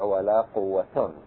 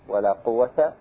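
First: The last word ends in -un. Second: The last word ends in a short a. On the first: "والرفع" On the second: "الفتح"

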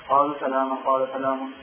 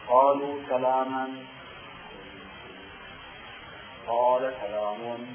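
First: The two phrases run together without a pause. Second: There is a clear pause between the two phrases. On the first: The implied question and answer are not brought out. The speaker calls it wrong. "ما يظهر المعنى اللطيف" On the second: The pause leaves room for the listener's implied question. The speaker calls it right. "يجب أن تقرأ هكذا ... وقف حتى تحت المهلة للسؤال"

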